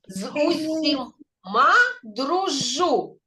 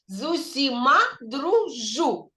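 First: The phrase is said slowly. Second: The phrase is said faster. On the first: "повільно" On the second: "тільки швидше"

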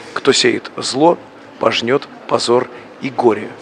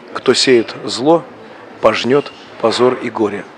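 No difference in how they are said.

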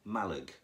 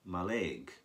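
First: The stress is on the first syllable. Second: The stress is on the second syllable. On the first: The speaker calls it right. "The stress is on the first syllable" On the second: The speaker calls it wrong. "I used to call it Maleg"

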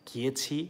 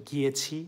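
Both takes have the same delivery.

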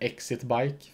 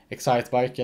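First: The first part sounds like 'exit'. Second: The first part sounds like 'excite'. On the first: The speaker calls it wrong. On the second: The speaker calls it right.

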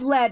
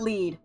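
First: The vowel is short, rhyming with 'bed'. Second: The vowel is long, rhyming with 'bead'. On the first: It refers to the metal. "They thought I meant lead" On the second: It refers to the equipment item. "not lead"

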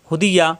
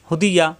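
No difference in how they are said.

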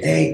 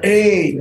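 First: It is said at a lower pitch. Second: It is said at a higher pitch.

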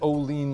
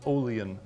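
First: It sounds like the potato chip brand name. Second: It sounds unlike the potato chip brand name. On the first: The speaker calls it wrong. "I pronounced it Olean like those potato chips" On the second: The speaker calls it right. "but I think it's pronounced Olean"

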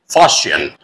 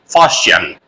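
First: It is said in an American accent. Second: The same.

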